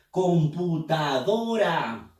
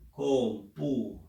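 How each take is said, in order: First: Computadora drawn out slowly; slow syllabified. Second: Said in the usual way. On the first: Shown as a demonstration. Teacher splitting computadora into syllables slowly. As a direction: stretch "Computadora" com-pu-ta-do-ra slowly. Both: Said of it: "Vamos a silabear".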